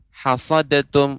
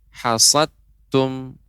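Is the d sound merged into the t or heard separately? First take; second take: separate; merged. First: The d sound is heard separately before t. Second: The d sound is merged into the t. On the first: The speaker calls it wrong. "Maka ini kurang tepat" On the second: The speaker calls it right. "Maka hilang huruf dalnya"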